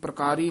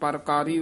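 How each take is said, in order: First: The word begins with a 'pra' consonant cluster. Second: The word begins with a full 'par' syllable. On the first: The speaker calls it wrong. "इसमें प्रकारी नहीं कहना" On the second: The speaker calls it right. "ये परकारी उच्चारण करना है"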